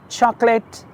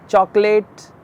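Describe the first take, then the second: Both takes have the same delivery.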